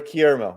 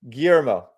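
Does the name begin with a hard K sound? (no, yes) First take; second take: yes; no. First: The name starts with a hard K sound. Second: The name does not start with a K sound.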